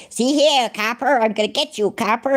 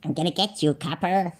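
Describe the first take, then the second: First: High-pitched mock movie gangster; old gangster-film voice. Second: Lightly voiced gangster-style threat; mock copper threat. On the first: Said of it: "in them old gangster films". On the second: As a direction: softly mimic his tough talk. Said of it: "That's the way he talks".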